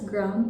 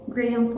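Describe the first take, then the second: First: The word is said as one syllable. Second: The word is said as two syllables. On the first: "I know I should pronounce it as gram" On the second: "pero graham for the vibes"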